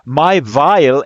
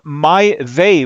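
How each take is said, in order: First: The name is said with German pronunciation. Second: The name is said without German pronunciation. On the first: The speaker calls it wrong. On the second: The speaker calls it right.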